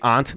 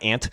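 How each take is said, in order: First: The word does not sound like 'ant'. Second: The word sounds just like 'ant'. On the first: It reflects a Northeast way of speaking. "I'm one of the few that say aunt" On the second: It is the way most people say it. "not ant"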